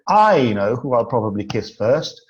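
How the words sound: The stress is on the word I. The speaker knows, but the listener does not. "If we put the emphasis on the first word"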